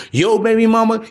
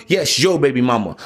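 First: Put-on "Yo baby mama" pitched up as a question; incredulous echo question. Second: Put-on "yes, yo baby mama" dropped low and falling; emphatic confirmation. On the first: Voicing the listener's doubt about his ex, questioning. Rhetorical question, then confirmed. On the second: Answering the listener's doubt about his ex, firmly confirming. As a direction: confirm it with weight on "yo", pitch falling. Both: Shown as a demonstration.

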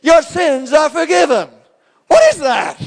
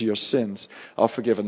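First: High, loud, incredulous shout; friends mocking in disbelief. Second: "Your sins are forgiven" said softly and low, with tender calm; gentle forgiveness. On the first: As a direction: throw "Your sins are forgiven" back at him in outrage, far higher and louder. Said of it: "They're going". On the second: Retold or imitated. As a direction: speak "Your sins are forgiven" as grace poured into a life. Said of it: "He looks into the soul of that man".

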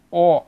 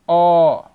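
First: "O" as a closed, rounded "oh". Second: "O" as a loud open "aw". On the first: Teacher showing the closed vowel, closed O. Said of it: "O fechado". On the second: Teacher showing the open vowel, open O. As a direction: drop the jaw on "O", held open like ó. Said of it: "para o aberto". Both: Shown as a demonstration.

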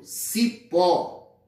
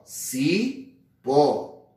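First: Said in the usual way. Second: "cipó" very slowly split as ci, pause, pó; syllable by syllable. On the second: Shown as a demonstration. Teacher pointing out cipó's syllables, one at a time. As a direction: draw out each syllable of "cipó" separately. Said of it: "dividimos em sílabas".

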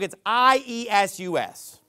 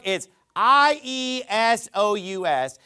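First: I E S U S spelled slowly, letter by letter. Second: I E S O U S spelled slowly, letter by letter. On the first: Preacher contrasting the English spelling with the Greek one. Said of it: "In that book". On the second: Preacher contrasting the Greek spelling with the English one. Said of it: "So in this book". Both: Shown as a demonstration.

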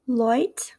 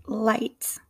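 First: Aussie "light", like "loit"; attempted Australian "light" with oi vowel; Australian accent, rounded glide in "light". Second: American "light" with eye vowel; American accent, open glide in "light". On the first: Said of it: "my attempts at an Australian accent". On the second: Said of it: "in my American accent". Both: Shown as a demonstration.

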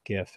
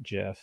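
First: "gif" with a hard g as in gift. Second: "gif" with a soft g, like jiff. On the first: Arguing over file format name, hard-g gif. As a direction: start "gif" like go. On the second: Arguing over file format name, rejected soft-g gif. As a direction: start "gif" with a j sound. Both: Shown as a demonstration. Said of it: "is pronounced gif and not gif".

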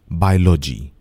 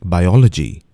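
First: "biology" said BYE-loj-ee, squashed together; "biology" with the o dropped; mispronounced "biology", bye-lo-jee; wrong pronunciation. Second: "Biology" said bye-OL-uh-jee; "Biology" with the stress on OL; careful "Biology", bye-ol-uh-jee; correct pronunciation. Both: Shown as a demonstration.

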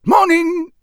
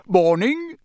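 First: Much higher, louder character voice; Muggle's gruff reply. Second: Bright, higher, with a rising lift; bright greeting. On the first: Acted. Muggle returning a visitor's greeting, high and loud. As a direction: answer loud and high as the local. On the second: A narrator's reading. Mister Weasley greeting the Muggle, brightly. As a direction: greet brightly, lifting the end. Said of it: "said Mister Weasley brightly".

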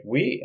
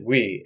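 First: Oui? asked with an unsure rising tune; puzzled question. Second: Oui. said as a settled falling statement; simple answer. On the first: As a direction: ask Oui? as if you don't get it. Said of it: "And he's like". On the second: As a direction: answer Oui. plainly like a firm yes. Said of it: "And they said". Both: Retold or imitated.

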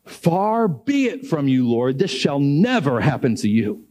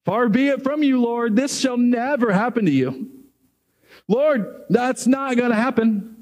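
First: Said in the usual way. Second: High, insistent objection; indignant protest. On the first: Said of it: "he says this". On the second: Retold or imitated. Peter refusing to accept Jesus will die, insistent. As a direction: protest like a loyal friend who won't hear it. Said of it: "and he says".

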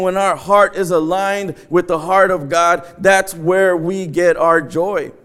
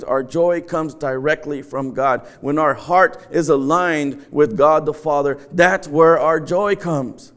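First: Slower and weightier second take; repeated line with slow stress; repeated for emphasis. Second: Slow, weighty declaration; slowed sermon emphasis; emphatic slow preaching. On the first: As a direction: hammer it home the second time. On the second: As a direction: lean on every word of it. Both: Shown as a demonstration. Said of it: "Let me say that again".

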